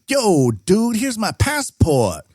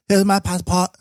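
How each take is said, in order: First: Much higher, laid-back hip-hop dude voice; hip-hop guy. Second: Put-on high, clipped Asian-accented English. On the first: Retold or imitated. Hip-hop fan customer hands over his passport, playing a laid-back hip-hop dude. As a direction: play a young Chinese hip-hop fan. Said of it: "talks like a hip-hop guy". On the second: Asian-accented customer handing over passport at the till. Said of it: "speak in a very Asian-y English accent".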